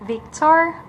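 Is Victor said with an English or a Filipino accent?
English. It is said with an English accent. "instead of us pronouncing Victor"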